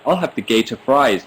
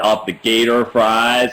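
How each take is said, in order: First: It is spoken in a British accent. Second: It is spoken in an American accent. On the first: "I think I'd sound really British next to him" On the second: "I heard this like American dad guy go"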